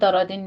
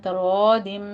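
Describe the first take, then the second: First: The word ends with a clear n sound. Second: The word ends with a nasal m sound. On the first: The speaker calls it wrong. "इसको तरादिन नहीं पढ़ना" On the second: The speaker calls it right. "तनवीन का कायदा हमारे पास इदगाम अल गुन्ना हो रहा है"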